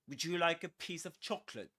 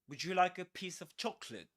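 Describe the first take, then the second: First: The words run together quickly and smoothly. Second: The same.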